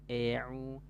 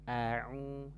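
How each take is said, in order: First: The first vowel shifts toward an e sound. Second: The first vowel is half open, smiling. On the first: The speaker calls it wrong. "jangan miring ... vokalnya menjadi berubah ke E" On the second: The speaker calls it right. "Mutawassit artinya pertengahan saja ... sambil disenyumkan"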